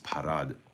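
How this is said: The word is pronounced the French way. "I imagine the French pronunci- pronunciate par- pronunciation is"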